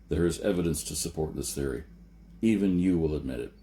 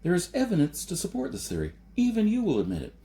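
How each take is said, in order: First: Said in the usual way. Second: Higher, faster, pressing character voice; insistent young man driving the point home; Jason's voice. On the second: A narrator's reading. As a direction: retake it as Jason, urgent and quick.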